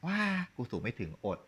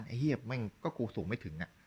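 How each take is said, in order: First: A deflated sigh of ว้า, then กูสูงไม่ถึง อด said like a quitter; mock giving up. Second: A cocky, shrugging กูสูงไม่ถึงอะ, not beaten; mock defiant. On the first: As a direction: sound like someone who has already given in. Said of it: "นี่คือคุณยอมไง". (ทำเสียงยอมแพ้ ท้อแท้แบบล้อเลียน) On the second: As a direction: toss it off like it doesn't matter. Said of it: "แต่ในทางกลับกัน". (ทำเสียงกวนๆ ไม่ยอมแพ้แบบล้อเลียน)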